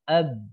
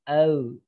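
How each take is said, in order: First: The lips close, so a b sounds. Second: The lips stay apart, so no b sounds. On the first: The speaker calls it right. "Jadi harus nempel bibir atas dan bawah" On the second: The speaker calls it wrong. "B-nya nggak keluar. Au. Kalau nggak nempel"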